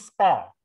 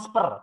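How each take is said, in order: First: The vowel sounds like the 'air' in 'hair'. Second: The vowel sounds like the 'ur' in 'fur'. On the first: The speaker calls it right. "tapi spare. Beda" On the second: The speaker calls it wrong. "Kamu ngomongnya spur. Bukan spur"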